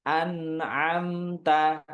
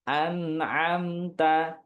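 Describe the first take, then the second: The two takes are said the same way.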